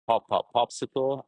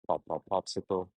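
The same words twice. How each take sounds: First: It is spoken at normal loudness. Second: It is spoken softly and quietly.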